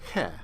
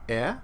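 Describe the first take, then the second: First: The vowel starts with an h sound. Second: The vowel starts with no h sound.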